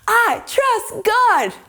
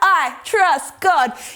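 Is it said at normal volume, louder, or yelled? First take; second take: yelled; louder. First: It is yelled out. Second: It is said louder.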